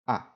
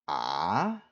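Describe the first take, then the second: First: The vowel is light with no pitch movement. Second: The pitch dips down, then rises again. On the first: "you don't have any extra stress and you just say the vowel itself" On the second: "third tone, which dips down and comes back up"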